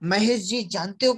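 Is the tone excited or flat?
excited. It is said excitedly, with emotion. The speaker found something very big. The speaker calls it right.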